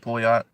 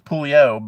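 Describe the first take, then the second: First: The final T is clearly pronounced. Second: The final T is silent, French style. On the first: "You got a T in there" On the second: "If you want to be French with it"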